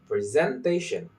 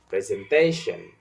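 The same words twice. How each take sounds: First: The stress falls on an Indonesian-influenced syllable. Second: The stress falls on the standard English syllable. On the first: The speaker calls it wrong. "Indonesian speaker might say presentation" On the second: The speaker calls it right. "instead of presentation"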